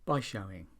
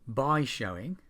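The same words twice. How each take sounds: First: The word 'by' is reduced and unstressed. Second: The word 'by' is said fully and stressed. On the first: The speaker calls it right. "we say" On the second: The speaker calls it wrong. "instead of"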